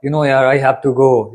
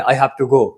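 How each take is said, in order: First: Slow, easygoing, a bit reluctant; loose, relaxed confidence. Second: Firm and decisive; bold. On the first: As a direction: say it casually, like it's a chore you can't avoid. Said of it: "थोड़ा सा loose confidence होके बोलेंगे". (ढीले आत्मविश्वास से, आराम से) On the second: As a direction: say it like you really mean to go. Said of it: "वही बोल्ड होके बोलेंगे". (बोल्ड, पक्के इरादे से) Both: Shown as a demonstration.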